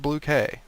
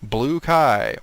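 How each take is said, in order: First: The last word sounds like the letter K. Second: The last word rhymes with 'sky'. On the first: The speaker calls it right. "Or is it Blue K?" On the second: The speaker calls it wrong. "I've always been pronouncing it wrong"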